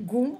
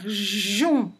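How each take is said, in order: First: It starts with a hard g sound. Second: It starts with a soft j sound. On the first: The speaker calls it wrong. "ça ne va pas faire gon" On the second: The speaker calls it right. "ça va faire jon"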